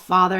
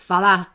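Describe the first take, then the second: First: The final R sound is clearly pronounced. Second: The final R sound is dropped. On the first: "it's not father" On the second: "the R's drop off"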